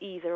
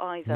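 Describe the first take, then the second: First: The first vowel sounds like 'ee'. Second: The first vowel sounds like 'eye'. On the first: "only 13% would go for either or neither" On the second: "Most British English speakers prefer neither or either"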